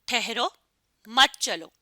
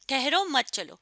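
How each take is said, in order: First: There is a pause after the first word. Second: It is said without a pause after the first word. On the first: "अगर मैं सत्ता की अलामत ठहरो के बाद लगा दूं" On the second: "अब इसमें हमने सत्ता की अलामत नहीं लगाई।"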